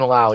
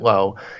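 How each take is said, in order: First: The vowel rhymes with 'now'. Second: The vowel rhymes with 'go'. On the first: "Lau rhymes with now" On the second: "everyone else pronounces that Lowe"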